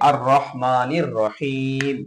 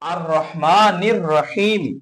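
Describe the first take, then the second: First: The last word ends on a bare 'm' sound. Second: The last word ends with an added 'i' vowel. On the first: The reading stops at the end of the verse. "আয়াত থামলে মিম ওয়াফ হবে" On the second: The reading continues into the next verse. "মিলিয়ে পড়া হলে"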